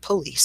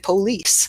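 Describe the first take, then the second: First: It is said with a Western Canadian accent. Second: It is said with a Southern US accent. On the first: "instead of police" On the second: "someone from the southern states who will say police"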